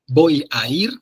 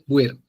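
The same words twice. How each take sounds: First: Every syllable of the phrase is pronounced clearly. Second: The syllables of the phrase are worn down together.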